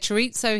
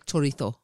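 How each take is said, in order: First: It is said with an English pronunciation. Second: It is said with a Spanish pronunciation.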